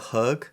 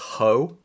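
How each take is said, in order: First: The name ends with a hard g sound. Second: The name ends on an open vowel. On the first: The speaker calls it wrong. "I pronounced the author's name Tina Höeg, and I was told that was wrong" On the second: The speaker calls it right. "it's pronounced Ho"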